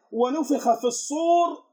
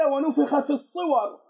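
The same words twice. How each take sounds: First: "الصور" read as al-sur, horn, slow recitation; slow Quranic reading, "الصور" as al-sur; reading variant one. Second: "الصور" read as al-suwar, forms, slow recitation; slow Quranic reading, "الصور" as al-suwar; reading variant two. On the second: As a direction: recite "الصور" as suwar, short u then -war. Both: Shown as a demonstration. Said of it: "الآن القراء يختلفون".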